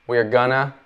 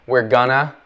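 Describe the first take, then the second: The two takes are said the same way.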